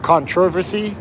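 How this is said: It is said the British way.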